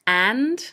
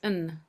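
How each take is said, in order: First: The word has a full, clear vowel. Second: The word has a weak, reduced vowel. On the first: "is the stronger form" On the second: "So it comes out as un"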